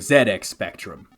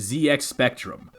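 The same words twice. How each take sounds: First: The letter Z is said the British way. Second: The letter Z is said the American way.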